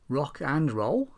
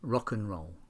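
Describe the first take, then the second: First: The word 'and' is said in full. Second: The word 'and' is weak and reduced.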